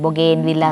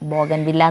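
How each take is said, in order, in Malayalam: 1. രണ്ടാമത്തെ അക്ഷരം നീട്ടിയ 'gen' എന്നാണ് പറയുന്നത്. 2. രണ്ടാമത്തെ അക്ഷരം 'gan' എന്നാണ് പറയുന്നത്. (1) "ബൊഗേൻ വില്ല എന്ന് പറയാം" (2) "ബോഗൻ വില്ല എന്ന് പറയരുതെന്ന് രാജലക്ഷ്മി ചേച്ചി പറഞ്ഞിട്ടുണ്ട്"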